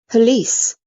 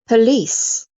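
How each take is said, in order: The two takes are said the same way.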